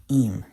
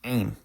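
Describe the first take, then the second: First: Im with a silent ayin, starting on the vowel; vowel-first im, no throat consonant; modern Hebrew. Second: Aim opening on the Arabic ayin sound; pronounced Ayin. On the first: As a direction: say im simply as "eem". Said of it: "In modern Hebrew, they just say". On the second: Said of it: "example of a word that uses the Ayin". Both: Shown as a demonstration.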